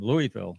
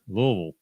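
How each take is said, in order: First: It uses the common, fully spelled-out pronunciation. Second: It uses the clipped pronunciation heard from locals.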